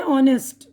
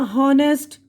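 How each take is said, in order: First: ऑनेस्ट starting on the O vowel; correct silent H. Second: हॉनेस्ट with a voiced H at the start; silent H sounded. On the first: Teacher giving the right reading, ऑनेस्ट starting from O. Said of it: "ये ओ से". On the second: Teacher showing a wrong reading, हॉनेस्ट with H sounded. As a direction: say हॉनेस्ट slowly with an audible H. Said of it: "ये तो नहीं बोल रहे हैं ना". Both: Shown as a demonstration.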